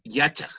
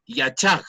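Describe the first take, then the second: First: Yachaj stressed on its first syllable, YA-chaj; corrected Yachaj, stress on YA; penultimate stress. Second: Yachaj stressed on its last syllable, ya-CHAJ; wrong final stress. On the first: Shown as a demonstration. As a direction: put the weight on the start of Yachaj. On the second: Retold or imitated. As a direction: put the weight on the end of Yachaj. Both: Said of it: "las palabras quichuas son graves".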